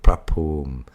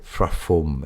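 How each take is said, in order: First: The word starts with a P sound. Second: The word starts with an F sound. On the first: The speaker calls it right. "instead of prapum" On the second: The speaker calls it wrong. "some bad pronunciations of, let's say, frafum"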